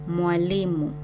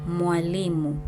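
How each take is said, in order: No difference in how they are said.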